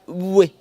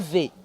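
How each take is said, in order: First: The letter is said with a w sound. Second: The letter is said with a v sound. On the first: The speaker calls it right. "elle se lit comme W. Prononcer oui" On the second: The speaker calls it wrong. "pas V"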